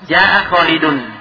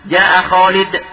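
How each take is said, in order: First: The name ends with an added -un sound. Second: The name ends at -d with no ending. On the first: The speech continues without stopping. "ketika disambung, tidak diwaqaf" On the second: The speaker pauses or stops here. "Apabila diwaqaf, hilang"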